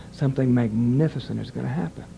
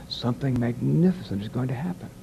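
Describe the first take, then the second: First: "Something magnificent" then a tiny pause before "is gonna happen"; tiny pause after magnificent. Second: Said in the usual way. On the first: Shown as a demonstration. Director demonstrating the right read to the announcer, tiny pause after "magnificent". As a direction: set "Something magnificent" apart with a brief beat. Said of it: "I put a little pause". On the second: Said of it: "you're not hearing what I'm saying".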